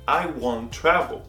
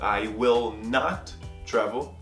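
First: Will not is merged into one syllable. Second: The words will not are said separately. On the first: "a contração ela é utilizada na fala" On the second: "Na negativa"

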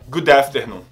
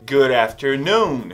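First: The stress falls on 'after'. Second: The stress falls on 'noon'. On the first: The speaker calls it wrong. "a tônica não vai ser no after, então não é good afternoon" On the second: The speaker calls it right. "A tônica é no noon, então o certo é good afternoon"

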